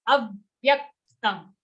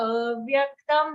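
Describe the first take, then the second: First: "Avyaktam" with a short a and a forceful push after it; extra force. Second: "avyaktam" with the opening a dragged out; dragged first vowel. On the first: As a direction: punch "Avyaktam" without dragging the first a. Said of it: "put a little extra force on that letter". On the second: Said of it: "don't drag the a". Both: Shown as a demonstration.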